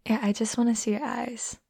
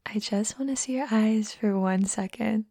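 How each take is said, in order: First: Said in the usual way. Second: Whispered. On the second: Acted. Asking a shy friend to look up, whispered. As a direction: repeat it as a close breathy whisper. Coaxing eye contact.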